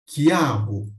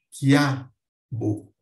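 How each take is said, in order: First: Said in the usual way. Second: "quiabo" em duas partes, "quiá... bo", com força no A; ditongo crescente. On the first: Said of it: "na pronúncia, como em". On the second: Shown as a demonstration. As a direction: say "quiabo" slowly, gliding from weak I into strong A, then "bo" apart. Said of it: "eu passo para mais forte". ("quiabo" pausado, subindo do I fraco para o A forte)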